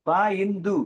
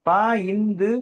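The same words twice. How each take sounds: The two takes are said the same way.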